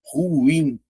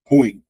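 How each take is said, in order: First: Ruim stretched as ru-IM; correct two-syllable pronunciation. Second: Ruim said short as one syllable; a quick, punched "ruim" with ui run together; everyday one-syllable pronunciation. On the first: Teacher giving the proper pronunciation of ruim, drawn out as ru-IM. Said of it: "Só que a pronúncia é". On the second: Teacher showing how people say ruim daily, clipped into one syllable. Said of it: "no dia a dia o pessoal faz o quê". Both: Shown as a demonstration.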